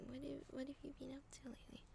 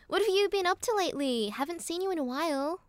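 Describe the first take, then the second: First: Barely audible, quick whisper; whispered read-through. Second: High, louder American accent. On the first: Real, not acted. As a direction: read it to yourself under your breath. Reads the written line under breath. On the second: Shown as a demonstration. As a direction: perform the line in a pitched-up American accent. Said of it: "Can you do an American accent?".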